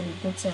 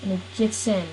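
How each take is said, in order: First: Softer, faster, under the breath; quick soft insistence; muttered repeat. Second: Said in the usual way. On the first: Real, not acted. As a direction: repeat it quietly to yourself as if annoyed. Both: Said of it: "I said he gets in".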